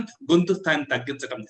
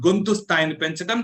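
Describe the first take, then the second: First: Dropped tone, falling at the end; lowered voice. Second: Lifted voice, rising at the end; raised voice. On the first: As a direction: let the voice come down. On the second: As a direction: raise the voice slightly. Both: Shown as a demonstration.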